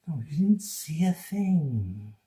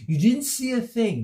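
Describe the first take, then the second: First: Slow, teasing put-on voice. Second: Said in the usual way. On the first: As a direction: coax them to forget it. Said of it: "teasing slow voice". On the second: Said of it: "playful denial".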